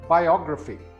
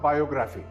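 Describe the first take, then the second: First: The stress is on the second syllable. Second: The stress is not on the second syllable. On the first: The speaker calls it right. "The second syllable is stressed" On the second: The speaker calls it wrong. "This word is not biography"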